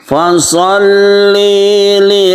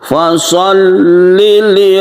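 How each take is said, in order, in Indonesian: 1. Bunyi l dipanjangkan. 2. Bunyi l dibaca pendek. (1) "nah itu kesalahannya" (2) "Yang betul adalah"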